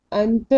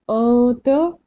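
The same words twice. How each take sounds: First: अंत with a plainly sounded n; short अंत, tongue making the n before t; wrong, full noon. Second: अंत slowed, n turned into a long nasal hum; hidden noon. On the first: Teacher demonstrating the wrong reading, noon fully pronounced. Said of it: "wrong". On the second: Teacher demonstrating correct ikhfa, nasal hold. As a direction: hold अंत in the nose before releasing the t. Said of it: "ये हो गया correct". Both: Shown as a demonstration.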